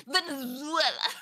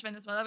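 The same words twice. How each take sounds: First: Overdone Venezuela with a heavy z, near laughing; exaggerated pronunciation. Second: Venezuela with a soft s sound for the z; Spanish pronunciation. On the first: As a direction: stretch the middle of Venezuela, hammed up. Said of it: "when I say it like that". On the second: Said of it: "like I say it in Spanish". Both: Shown as a demonstration.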